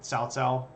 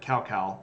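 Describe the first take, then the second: First: Each syllable begins with a ts sound. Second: Each syllable begins with a k sound. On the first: The speaker calls it right. "but it's pronounced like T S" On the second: The speaker calls it wrong. "which is spelled like this, like cow cow"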